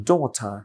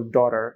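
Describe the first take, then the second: First: British "daughter" with crisp t and no r; British accent. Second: American accent. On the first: Teacher contrasts accents for learners, British daughter. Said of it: "ব্রিটিশরা বলতে পারে daughter". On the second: Teacher contrasts accents for learners, American daughter. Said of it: "আমেরিকানরা বলে daughter". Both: Shown as a demonstration.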